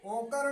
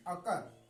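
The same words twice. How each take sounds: First: ओकर starting on a long o; wrong o sound. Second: अकर starting on a short uh; short uh sound. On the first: Teacher warning against a misreading, ओकर with initial long o. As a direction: open ओकर with a full o. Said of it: "ओकर नहीं पढ़ेंगे". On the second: Teacher showing the correct reading, अकर with initial short uh. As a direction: open अकर with uh, not o. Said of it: "अकर पढ़ेंगे". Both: Shown as a demonstration.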